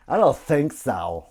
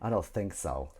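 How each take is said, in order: First: Slow and loud, leaning on don't; drawn-out loud I don't think so; drawn-out emphatic. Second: Said in the usual way. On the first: Shown as a demonstration. Repeating the phrase to chat.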